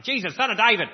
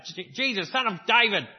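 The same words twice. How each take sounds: First: Loud, higher-pitched cry for help; desperate shout. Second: Calling out. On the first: Blind man shouting to Jesus from the roadside, loud and desperate. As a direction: yell it across the crowd like a blind beggar. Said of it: "he's yelling and yelling and yelling". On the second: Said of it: "That's how he sounded". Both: Retold or imitated.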